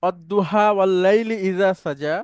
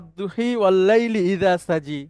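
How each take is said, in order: First: The verse is read in the common style. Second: The verse is read in a variant style. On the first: "যেমন আমরা পড়ি" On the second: "কোন কোন এক্সেন্টে আছে"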